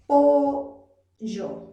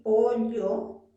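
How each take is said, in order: First: POLLO loud, in two parts, "po... yo" with a Y; coastal yeísmo. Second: POLLO as "po-lyo" with palatal ll; highland double-L. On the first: Teacher showing coastal students their own pronunciation, yeísmo with Y. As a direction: break POLLO up and give it a Y sound. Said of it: "Tú pronuncias". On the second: Teacher contrasting her sierra speech with the students', double-L. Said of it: "Mientras yo pronuncio así". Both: Shown as a demonstration.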